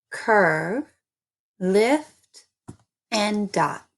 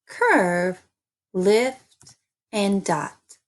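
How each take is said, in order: Both takes have the same delivery.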